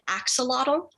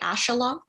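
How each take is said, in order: First: The middle has a 'ks' sound, ending 'lotl'. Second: The middle has an 'sh' sound, ending 'lock'. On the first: This is the common English pronunciation. The speaker calls it wrong. "most English speakers pronounce it axolotl" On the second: This is closer to the original language's pronunciation. The speaker calls it right. "a more accurate pronunciation would be ashalock"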